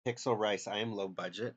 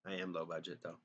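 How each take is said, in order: First: A little louder, playfully indignant; mock offended. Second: Softer, shrugging concession; resigned admission. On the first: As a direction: throw the insult back in mock outrage. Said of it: "How freaking dare you?". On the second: Pretend. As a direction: admit it with a sheepish shrug.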